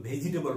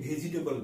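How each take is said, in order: Both takes have the same delivery.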